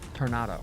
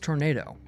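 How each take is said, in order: First: It is said in a European-style accent. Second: It is said in a native English accent. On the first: The speaker calls it wrong. "As I've heard some Europeans pronounce it incorrectly" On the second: The speaker calls it right. "It is tornado"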